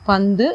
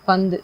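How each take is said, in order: The two takes are said the same way.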